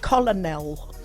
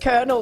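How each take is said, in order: First: It is said the way it is spelled. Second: It is said with its usual pronunciation. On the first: Learned from reading, never heard aloud. The speaker calls it wrong. "I'd say things like" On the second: The standard spoken form. The speaker calls it right. "instead of"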